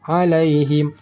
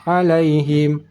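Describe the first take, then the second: No difference in how they are said.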